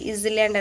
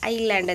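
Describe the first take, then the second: First: It starts with 'is' followed by 'land'. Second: It starts with 'eye' followed by 'land'. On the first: The speaker calls it wrong. "ಈಸ್ ಲ್ಯಾಂಡ್ ಅನ್ನಂಗಿಲ್ಲ" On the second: The speaker calls it right. "ಐಲ್ಯಾಂಡ್ ಅಂತೀವಿ"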